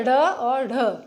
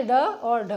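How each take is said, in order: First: "ढ़" with a quick tongue flap, then plain "ढ" after it; teacher demonstrating the dotted flap "ढ़ और ढ"; flapped sounds. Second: "ड और ढ" with the tongue striking hard, no flap; plain retroflex stops. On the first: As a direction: flick the tongue forward on "ढ़", a little louder. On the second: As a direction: clear stop ड and aspirated ढ, crisp and deliberate. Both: Shown as a demonstration. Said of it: "आप सुनिए मेरी आवाज़ को सुनिए".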